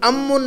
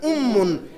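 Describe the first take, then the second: First: अम्मुन said with an open "a" at the start, as the wrong way; अम्मुन with a short "am" sound, shown as the mistake to avoid; wrong vowel shown. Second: उम्मुन said with a rounded "u" at the start and a doubled m; उम्मुन, the lips rounded on the first "u", the m held; correct Arabic vowel. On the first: Arabic teacher shows the wrong reading of mother: अम्मुन with an "a" sound. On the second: Arabic teacher gives the right reading of mother: उम्मुन with a rounded "u". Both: Shown as a demonstration. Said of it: "अम्मुन नहीं पढ़ना".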